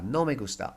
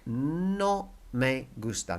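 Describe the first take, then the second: First: Said in the usual way. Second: No me gusta drawn out slowly for learners; slow teacher demo; slow model. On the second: Shown as a demonstration. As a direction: lay out No me gusta word by word. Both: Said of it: "Here it is, look".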